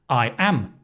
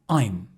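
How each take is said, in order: First: It is said as two full words. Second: It is said as one contracted word.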